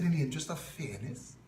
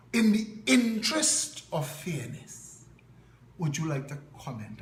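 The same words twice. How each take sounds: First: Quick, softer disbelieving echo of his phrase; incredulous echo. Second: Mimicking a Chaguanas reporter. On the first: Retold or imitated. Retelling his reply to the reporter, an incredulous quick echo. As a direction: throw his words back at him in disbelief. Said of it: "I said". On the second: Chaguanas reporter phoning him for comment, in a mild mock accent. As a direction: play the trained-voice Chaguanas caller, measured and proper. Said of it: "with a Chaguanas accent".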